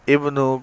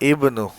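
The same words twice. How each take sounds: No difference in how they are said.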